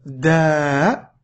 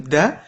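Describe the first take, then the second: First: "da" with the a held long; long vowel. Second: "da" with a short vowel. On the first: Teacher showing long vowels to a learner, "da" drawn out. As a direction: stretch the vowel of "da" right out. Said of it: "on passe aux voyelles longues". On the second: Teacher showing short vowels to a learner, "da" kept short. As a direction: say "da" with a brief, unheld a. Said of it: "Ça, c'est pour les voyelles courtes". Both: Shown as a demonstration.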